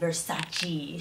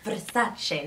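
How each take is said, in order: First: It is said the American way. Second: It is said the Italian way.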